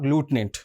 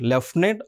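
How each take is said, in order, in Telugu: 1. మొదటి అక్షరాన్ని 'loo' లాగా పలుకుతారు. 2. మొదటి అక్షరాన్ని 'lef' లాగా పలుకుతారు. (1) "we can pronounce in the two ways" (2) "we can pronounce in the two ways"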